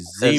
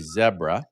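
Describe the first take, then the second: First: It is said with a North American pronunciation. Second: It is said with a British pronunciation.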